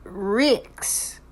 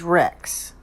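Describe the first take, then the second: First: "Rix," with a short i in place of e; Kiwi Rix. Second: "Rex" with a clear short e; plain Rex. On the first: Retold or imitated. Vlogger imitating the speaker's name slip, "Rix," with i. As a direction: say "Rix," the New Zealand way. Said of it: "like when she says". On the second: Shown as a demonstration. Vlogger giving the correct name, "Rex" with an open e. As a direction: say "Rex" the standard way. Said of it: "The pronunciation is Rex".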